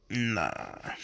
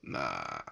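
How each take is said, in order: First: Said in the usual way. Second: Very low, quiet gruff nah; deep low rumbling nah; mock deep nah. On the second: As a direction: drop the voice way down to dismiss it. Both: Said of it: "but then I'm like".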